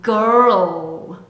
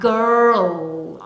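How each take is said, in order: No difference in how they are said.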